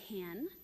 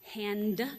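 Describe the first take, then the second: First: The final d sound is dropped. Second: The final d sound is pronounced. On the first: "cutting the ends of words off" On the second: "instead of saying hand"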